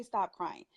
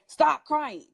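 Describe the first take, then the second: First: Said in the usual way. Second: Firm retold parental order; scolding parent. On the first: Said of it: "No, don't say". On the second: Parent to a crying child, mimicked scolding. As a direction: mimic a parent's command, higher and louder. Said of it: "You hear the parents say".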